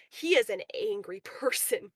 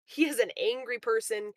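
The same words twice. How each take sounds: First: A laugh breaking into the words; laughing through it. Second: Said in the usual way. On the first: Real, not acted. Talking about the angry guy, laughing. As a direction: laugh mid-sentence, then finish it.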